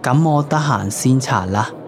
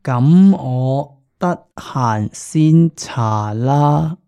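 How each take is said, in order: First: It is said at normal speed. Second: It is said more slowly.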